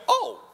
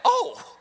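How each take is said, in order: First: High, dawning little oh; a realisation hitting her; surprised oh. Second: Much higher, louder amazed oh with a laugh; higher surprised oh. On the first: Retold or imitated. Old woman realising she is not dead yet, surprised oh. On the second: Shown as a demonstration. Preacher re-acting the old woman's realisation, amazed high oh. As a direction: replay her dawning surprise, bigger. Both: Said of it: "just like that".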